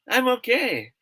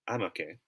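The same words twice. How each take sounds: First: It is said brightly, sounding genuinely fine. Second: It is said flatly, sounding not really fine. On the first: The person really is fine. "That's a sign that what he or she is saying is true" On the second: The person is not really fine. "if he or she say it like this, ... it means something else"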